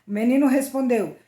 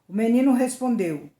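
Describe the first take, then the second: No difference in how they are said.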